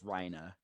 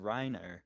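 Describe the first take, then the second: First: The name is pronounced in a Japanese style. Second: The name is pronounced in an English style.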